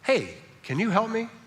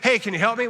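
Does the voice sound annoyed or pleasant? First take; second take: pleasant; annoyed. First: The tone is warm and pleasant. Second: The tone is irritated and exasperated. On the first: It is a friendly invitation to help. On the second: You never help and you are wearing me out.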